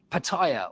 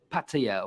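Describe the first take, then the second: First: "Pattaya" as puh-TIE-uh; anglicised pronunciation. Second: "Pattaya" as PAT-ee-uh; anglicised pronunciation. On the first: Quoting critics on how it should be said, anglicised pronunciation. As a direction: stress the middle TIE in "Pattaya". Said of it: "why are you saying it like that". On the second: Offering the critics' other version, anglicised pronunciation. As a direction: stress the first syllable PAT in "Pattaya". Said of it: "or whatever". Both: Shown as a demonstration.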